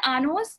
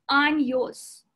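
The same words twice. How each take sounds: First: "años" said AH-nos, no y glide; wrong plain N. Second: "años" said slowly as AHN-yos; N-Y sound. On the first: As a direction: flatten the ñ of "años" to a simple n. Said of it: "it's not años". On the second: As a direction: stretch "años" and put a y glide after the n. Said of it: "which is N Y". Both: Shown as a demonstration.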